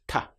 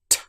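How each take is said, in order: First: A softer t with the tongue behind the teeth. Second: A very sharp, crisp t with teeth together. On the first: "In Europe, this sound will often be pronounced like ta" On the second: "in British English, teeth together. And then we have this very sharp t sound"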